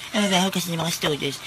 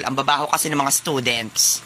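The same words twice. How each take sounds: First: Softer, put-on parroting voice; quiet mocking echo; mocking mimicry. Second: Lower-pitched snooty complaint; haughty muttering to yourself; disdainful grumble. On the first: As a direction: parrot the snooty complaint back under your breath. Student mockingly repeats sir's complaint. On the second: Acted. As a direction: grumble about them with disdain. Snooty sir complains, student mimics.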